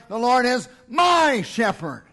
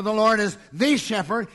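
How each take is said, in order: First: My punched, falling firmly in The Lord is my shepherd; my said strong and final with a falling tune; stress on my. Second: The leaned on in The Lord is the shepherd, rising end; the shepherd said with the stressed and a rising tune. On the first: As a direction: lean hard on my. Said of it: "He cried". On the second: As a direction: hit the word the. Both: Shown as a demonstration.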